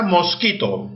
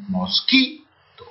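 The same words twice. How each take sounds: First: Said in the usual way. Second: "mosquito" very slow and low, leaning on "qui"; acento en QUI. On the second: Shown as a demonstration. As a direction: stretch "mosquito" to show the stressed "qui". ("mosquito" muy lento y grave, marcando la sílaba "qui") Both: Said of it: "¿dónde lleva la mayor fuerza de voz?".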